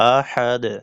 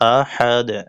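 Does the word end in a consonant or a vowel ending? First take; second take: consonant; consonant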